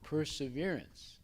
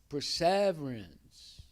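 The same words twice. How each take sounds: First: The stress falls on the first syllable. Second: The stress falls on the second syllable. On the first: The speaker calls it right. "in English, you put all the emphasis on the first syllable" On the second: The speaker calls it wrong. "that's a wrong way of reading it in English"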